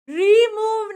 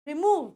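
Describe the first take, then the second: First: The first syllable is long and full. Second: The first syllable is short, the oo long. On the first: The speaker calls it wrong. "रिमूव नहीं है" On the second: The speaker calls it right. "Word आता है छोटा"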